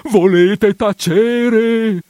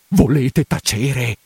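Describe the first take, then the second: First: Much higher, louder and very slow cry; exasperated outburst. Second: Slow, firm, contained command; stern hush. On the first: Priest shouting his housekeeper down, exasperated. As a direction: explode in desperation. Hushes her, second time. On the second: Priest telling housekeeper to stop, firm hush. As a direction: cut her off firmly. Hushes her, first time. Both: Acted.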